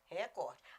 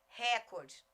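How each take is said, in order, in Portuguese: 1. A tônica está na segunda sílaba. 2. A tônica está na primeira sílaba. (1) "a palavra é recorde" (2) "erro de prosódia... transformando palavras paroxítonas em proparoxítonas"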